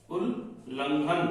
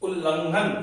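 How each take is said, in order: First: उल्लंघन stretched slowly, softer; drawn out. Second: Said in the usual way. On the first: Shown as a demonstration. Teacher slowly stretching उल्लंघन for students. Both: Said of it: "यहाँ पे आधा ला आया है".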